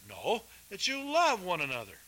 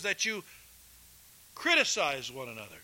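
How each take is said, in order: First: Love stressed as the right word; corrected quote. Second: Criticize stressed as the wrong word; deliberate misquote. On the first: Preacher corrects the misquote for the congregation, stress on love. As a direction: correct himself, hit love. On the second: Preacher misquotes Jesus to the congregation, stressing criticize. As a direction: misquote on purpose, land on criticize. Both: Shown as a demonstration.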